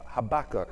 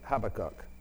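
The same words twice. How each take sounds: First: The name is said with an American pronunciation. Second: The name is said with a British pronunciation. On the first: "as Americans say it" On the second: "Brits say Habakkuk"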